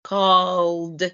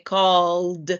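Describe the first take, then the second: First: The ending is said as just a d sound. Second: The ending is said as just a d sound.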